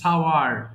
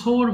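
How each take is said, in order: First: The vowel glides from 'a' to 'oo'. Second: The vowel is a single plain 'o' sound. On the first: The speaker calls it right. "এটা কিন্তু সাওয়ার হবে" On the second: The speaker calls it wrong. "অনেকে সোর বলে ফেলে"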